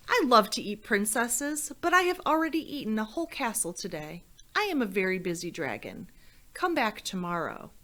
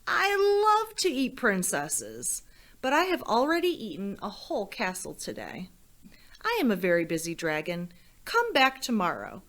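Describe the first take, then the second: First: Dragon rattling off his excuse quickly; lightly voiced dragon brushing her off; impatient dragon. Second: Grand storybook dragon brushing her off; boastful dragon. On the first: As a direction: hurry through it, bored of repeating. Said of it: "and he said". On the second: Acted. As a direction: puff yourself up like a full, proud dragon. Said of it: "And the dragon said".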